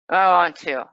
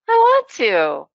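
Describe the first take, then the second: First: It is said in an annoyed, rejecting tone. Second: It is said in a warm, happy tone. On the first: The person wants to be left alone. "means probably "I don't want to," or "Go away, leave me alone."" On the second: The person is glad to see you. "that's "I'm happy to see you.""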